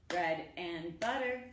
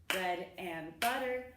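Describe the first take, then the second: The two takes are said the same way.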